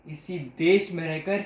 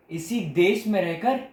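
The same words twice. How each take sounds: The two takes are said the same way.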